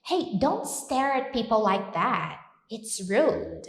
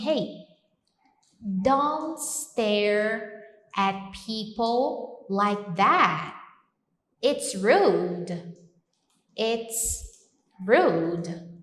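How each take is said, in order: First: Said in the usual way. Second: Slow firm scolding; scolding example. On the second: Shown as a demonstration. Teacher scolding someone for staring, firm. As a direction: tell them off for staring, slowly. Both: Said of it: "eu posso falar assim".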